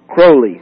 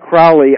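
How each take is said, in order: First: The first syllable sounds like the word 'crow'. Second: The first syllable does not sound like 'crow'. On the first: This is the way the man himself said his name. The speaker calls it right. "the pronunciation he used ... like a crow the bird" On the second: This is the common way people say the name. The speaker calls it wrong. "It's commonly pronounced Crowley, but if I say Crowley, I will get, like, flooded with letters"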